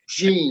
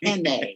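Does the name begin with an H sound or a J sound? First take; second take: J sound; H sound. First: The name begins with a J sound. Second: The name begins with an H sound. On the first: The speaker calls it right. "No, it's Gene, you idiot" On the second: The speaker calls it wrong. "A package has been delivered for Henne"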